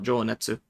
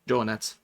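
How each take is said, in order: First: The final u sound is clearly voiced aloud. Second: The final u sound is dropped, nearly silent. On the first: The speaker calls it wrong. "It's not" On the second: The speaker calls it right. "The u part would be silent in Japanese. It's pronounced"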